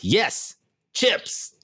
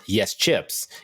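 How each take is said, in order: First: It is said excitedly, with exclamation. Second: It is said flatly, without exclamation. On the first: The speaker calls it right. "There's two exclamation points" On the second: The speaker calls it wrong. "It's not"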